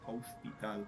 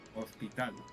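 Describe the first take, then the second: First: The starting h sound is clearly pronounced. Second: The starting h sound is silent.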